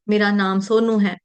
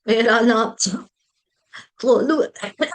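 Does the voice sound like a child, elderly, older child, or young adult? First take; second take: older child; elderly. First: It is said clearly, like an older child. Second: It is said in an old woman's voice.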